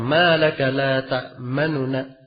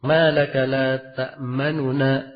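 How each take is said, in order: The two takes are said the same way.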